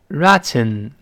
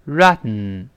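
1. t完全通过嘴巴释放。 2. t是被阻住后通过鼻子释放的。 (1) "我们慢慢读呢是这么一个声音，大声读一遍" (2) "会有鼻腔爆破发生……就没有爆破出t，而是鼻子出气儿。所以我们这么读"

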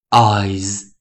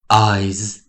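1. 它以浊音 z 结尾。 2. 它以浊音 z 结尾。

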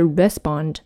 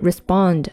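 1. 重音在第一个音节上。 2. 重音在第二个音节上。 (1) "而不是respond" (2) "它的重音是在第二个音节，所以是respond"

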